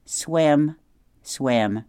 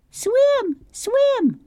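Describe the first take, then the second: First: A lightly voiced robot, level and near plain, no squeak; robot echo. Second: Much higher, tiny squeaky chirp on each swim; squeaky gosling. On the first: Roz the robot echoing her son, near plain voice. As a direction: repeat swim swim flatly back to the gosling. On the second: Gosling Bright Bill chanting at his mother, tiny high squeak. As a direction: peep swim swim like a baby bird. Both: A narrator's reading.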